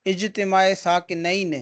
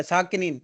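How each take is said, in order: First: ساکنین said saakinayn, dual ending ayn, drawn out slowly; اجتماع ساکنین spelled out slowly with ayn at the end of ساکنین; correct dual ending. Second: ساکنین read as saakineen with a long ee, the wrong way; teacher shows the mistaken plural ending in ساکنین. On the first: Teacher to students, correct dual saakinayn, slow and clear. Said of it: "اس کا صحیح تلفظ ہے تثنیہ کے صیغے کے ساتھ". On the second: Teacher shows students the common mistake, saakineen. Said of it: "لیکن ساکنین پڑھنا درست نہیں ہے". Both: Shown as a demonstration.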